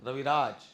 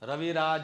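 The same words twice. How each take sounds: First: The name ends on the bare final consonant. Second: The name ends with an extra final vowel. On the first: The speaker calls it right. "લખાય છે આખો, બોલાય છે અડધો" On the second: The speaker calls it wrong. "એવું નહીં બોલવું. પાછળ અ નહીં બોલવું"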